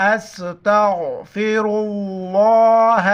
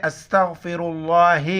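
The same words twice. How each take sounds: First: استغفر اللہ slowly, with a full heavy اللہ; correct pronunciation. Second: استغفر اللہ with an i-sound after the ra, thin اللہ; the common mistake of reading ra with zer; wrong pronunciation. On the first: Shown as a demonstration. Teacher correcting the students' mistake, slow heavy correct reading. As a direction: stretch it out and make اللہ thick. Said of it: "لفظ اللہ کو موٹا پڑھیں گے". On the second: Retold or imitated. Teacher showing how students wrongly say it, quick mistaken reading. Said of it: "حالانکہ لفظ اللہ پر زبر ہے، زیر نہیں ہے".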